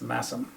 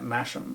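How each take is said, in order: First: The middle consonant is an 's' sound. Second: The middle consonant is an 'sh' sound. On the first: The speaker calls it right. "but it's Massam" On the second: The speaker calls it wrong. "I actually was pronouncing it Masham"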